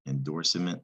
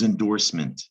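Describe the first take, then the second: First: The ending sounds like the word cement. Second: The ending is a short unstressed 'ment'. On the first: The speaker calls it wrong. "it looks like cement" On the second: The speaker calls it right. "No, this is endorsement"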